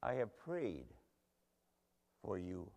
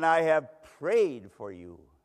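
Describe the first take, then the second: First: Soft, low, tender repeat; hushed assurance. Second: Loud, slow, weighty declaration; emphatic assurance. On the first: Jesus reassuring Simon before his fall, hushed and tender. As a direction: let it sink down gently, with a pause. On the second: Jesus assuring Simon before his fall, emphatic and slow. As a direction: declare it firmly, stretching the words out. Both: Acted.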